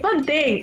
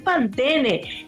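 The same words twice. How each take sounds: First: The final E is left silent. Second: The final E is pronounced as a vowel. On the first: "no se pronuncia la E" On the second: "no es Pantene"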